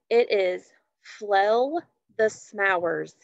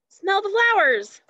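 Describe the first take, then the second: First: Flell the smowers said slowly, swapped first sounds; spoonerism. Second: Smell the flowers said high and bright, sounds unswapped; excited reveal. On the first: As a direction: read flell the smowers slow and careful. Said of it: "it's time for our spoonerism". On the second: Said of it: "What do you think?". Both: Shown as a demonstration.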